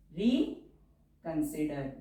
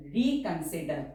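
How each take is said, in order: First: Drawn out word for writing; slow dictation. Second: Said in the usual way. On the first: Shown as a demonstration. Teacher dictating a word to shorthand students, slowly.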